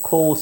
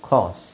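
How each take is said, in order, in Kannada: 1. ಈ ಸ್ವರ ಗುಂಡಗಿನ 'oh' ಶಬ್ದ. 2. ಈ ಸ್ವರ ತೆರೆದ 'ah' ಶಬ್ದ. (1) "ಬ್ರಿಟಿಷರು ಅದನ್ನು ಖೋಸ್ ಅಂತಲೇ ಹೇಳೋದು" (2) "ನಾವು ಅದನ್ನು ಸ್ವಲ್ಪ ಕಡಿಮೆ ಮಾಡ್ಕೊಂಡು ಖಾಸ್ ಅಂತ ಹೇಳೋದು"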